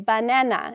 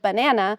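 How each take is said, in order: First: All syllables get equal stress, robotic and monotone. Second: One syllable is stressed more than the others. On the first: The speaker calls it wrong. "equal syllabic stress... sound really more robot robotic, maybe a little monotone" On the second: The speaker calls it right. "instead of banana"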